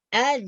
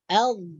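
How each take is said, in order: First: It ends with a buzzing z sound. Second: It ends with a soft th sound. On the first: The speaker calls it wrong. "itu salah" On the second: The speaker calls it right. "hujung lidah kita akan keluar sedikit"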